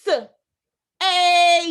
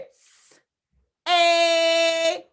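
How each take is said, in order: First: "S-", long loud "A", then an extra "yuh"; wrong breakdown demo. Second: Hissed "S-", then "A" held long as one sound; two-sound breakdown. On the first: Teacher shows what not to do, wrong breakdown demo. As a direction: stretch "A" loudly and tack "yuh" on the end. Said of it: "We do not wanna do this". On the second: Teacher breaks down say for the class, two-sound breakdown. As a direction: sound out "S-", then a steady "A" with no "yuh". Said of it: "A Y is one sound". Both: Shown as a demonstration.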